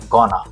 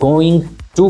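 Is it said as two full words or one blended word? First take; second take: one word; two words. First: The words are blended into one short word. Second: Both words are said fully and separately. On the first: "तो बन गया गोना" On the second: "गोइंग टू को कर दिया"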